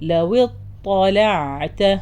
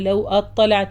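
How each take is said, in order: First: The 'w' runs straight into the 't'. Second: An extra 'a' vowel is sounded before the 't'. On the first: The speaker calls it right. "ലവ് വാവുന്ന് നേരെ ത" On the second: The speaker calls it wrong. "ലവ് അത്വലഅത എന്ന് പറയരുത്"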